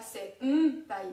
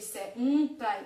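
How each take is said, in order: First: Senpai with the n turning to m before p, slower; natural senpai. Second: Senpai pushed out louder and slowly, with a stressed n; over-stress senpai slowly. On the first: Teacher to students, the correct senpai with m sound. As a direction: say senpai the real Japanese way, nasal m before p. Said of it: "Mais en vrai". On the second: Teacher shows students the wrong stressed senpai, louder and slow. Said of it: "Si j'accentue". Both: Shown as a demonstration.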